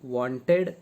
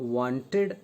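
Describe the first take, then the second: No difference in how they are said.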